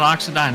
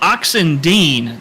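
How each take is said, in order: First: The last syllable sounds like 'dine'. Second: The last syllable sounds like 'dean'. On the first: The speaker calls it wrong. "not Oxendine" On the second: The speaker calls it right. "it's uh, Oxen Dean"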